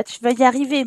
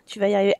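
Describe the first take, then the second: First: Encouraging. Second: Softer encouraging. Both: Real, not acted. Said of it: "Allez, Florent, un peu de forçage".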